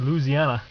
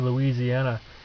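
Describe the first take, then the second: First: It is said with a Southern pronunciation. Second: It is said with a Northern, Ohio pronunciation. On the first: "When we traveled down south, he said Louisiana" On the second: "I pronounce this right in Ohio, you say it wrong, you say Louisiana"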